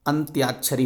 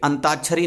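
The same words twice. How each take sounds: First: अंत्याक्षरी said carefully as "antyaakshari", half n, half t, then ya; correct pronunciation. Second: अंताक्षरी said as "antaakshari", plain t with no y after it; wrong pronunciation. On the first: Teacher giving students the correct form, careful अंत्याक्षरी with tya. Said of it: "अंत्याक्षरी होता है". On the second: Teacher showing students the common mistake, wrong अंताक्षरी without the y. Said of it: "देखिए अंताक्षरी नहीं होता है". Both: Shown as a demonstration.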